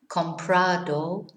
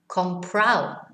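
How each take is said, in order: First: The ending is said with a clear d. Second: The ending is said without the d.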